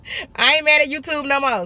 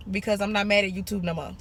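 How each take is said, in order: First: Louder, higher and emphatic on "mad"; playfully insisting "I ain't mad at YouTube no more"; emphatic restatement. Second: Said in the usual way. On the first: Real, not acted.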